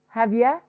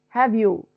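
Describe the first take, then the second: First: The last word is reduced to a short ya. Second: The last word is said fully as you.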